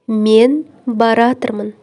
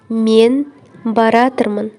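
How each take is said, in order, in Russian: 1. Два глагола сливаются в одно сокращённое слово. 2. Два глагола сливаются в одно сокращённое слово.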